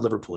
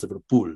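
First: The name is said with an English pronunciation. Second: The name is said with a Spanish pronunciation. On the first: The speaker calls it wrong. "it's not Liverpool" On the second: The speaker calls it right. "because that's the Spanish pronunciation"

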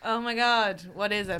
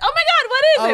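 First: It is said in a flat, unexcited tone. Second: It is said in an excited tone.

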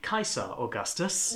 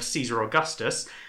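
First: It is said with the classical Latin pronunciation. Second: It is said with the usual English pronunciation. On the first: The speaker calls it right. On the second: The speaker calls it wrong.

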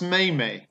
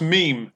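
First: It is said as two syllables, like may-may. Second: It is said as one syllable, like meem. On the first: The speaker calls it wrong. "it's not pronounced maymay" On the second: The speaker calls it right. "It's pronounced meme"

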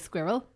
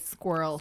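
First: The word is said with two syllables. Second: The word is said with one syllable. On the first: "I say squirrel. Two syllables" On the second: "Some people say squirrel"

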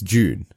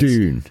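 First: Said in an Australian accent, sounding like June. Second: Said in an American accent with a plain d. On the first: "With the Australian accent, it's June" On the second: "Americans call it Dune"

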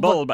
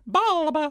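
First: It is said in a northern English accent. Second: It is said in a high-pitched American accent. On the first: "It's a northern thing" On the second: "Or in America they'd be like"

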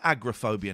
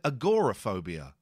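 First: The 'o' vowel is dropped or reduced. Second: The 'o' vowel is clearly pronounced. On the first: This is the older way of saying it. "we don't call it agoraphobia now" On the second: This is the current way of saying it. "you pronounce the O now"

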